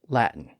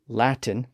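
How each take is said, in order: First: The middle T sound is dropped. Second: The middle T sound is clearly pronounced.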